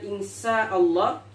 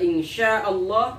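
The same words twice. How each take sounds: First: The word uses a light s sound. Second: The word uses a sh sound. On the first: It means if God makes it ugly. The speaker calls it wrong. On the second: It means if God wills. The speaker calls it right.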